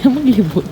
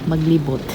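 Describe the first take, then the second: First: Repeated high and louder with a laugh. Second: Said in the usual way. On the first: Real, not acted. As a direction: laugh as you say it again.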